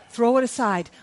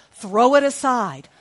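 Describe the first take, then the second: First: Said in the usual way. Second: Urging. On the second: Acted.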